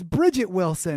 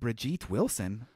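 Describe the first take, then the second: First: The first name is said like English Bridget. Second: The first name is said like French Brigitte. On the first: The speaker calls it right. "It's Bridget Wilson" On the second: The speaker calls it wrong. "That's not Brigitte Wilson"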